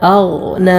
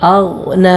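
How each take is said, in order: Both takes have the same delivery.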